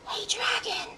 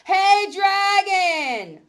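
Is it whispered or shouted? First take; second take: whispered; shouted. First: It is whispered very softly. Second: It is shouted very loudly.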